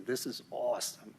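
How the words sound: It is said in an imitated Boston accent.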